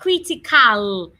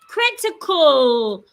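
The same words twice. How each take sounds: First: The final A sounds like ah. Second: The final A sounds like uh. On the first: The speaker calls it wrong. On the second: The speaker calls it right.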